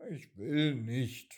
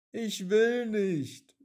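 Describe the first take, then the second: First: Said in the usual way. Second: Higher, louder, slow stubborn raindrop; whiny raindrop. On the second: A narrator's reading. Raindrop refuses the puddle, high and whiny. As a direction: wail the refusal like a small child.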